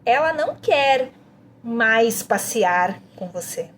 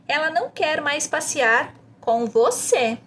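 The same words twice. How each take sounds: First: The emphasis falls on "mais passear". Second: The emphasis falls on "com você". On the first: "A próxima, mais passear" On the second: "você enfatiza com você no final"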